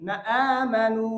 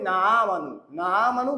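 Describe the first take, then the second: First: Short না, distinct catch, long 'aa' in আমানু; correct hamza. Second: না আমানু with a long 'naa' blurring the hamza; common misreading. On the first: Shown as a demonstration. Teacher showing how it must be read, articulated. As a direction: break cleanly before আমানু and hold its first vowel. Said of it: "এখানে পড়তে হবে". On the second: Retold or imitated. Teacher imitating our usual error, mispronounced. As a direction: glide from না into আমানু with no catch. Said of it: "আমরা পড়ি".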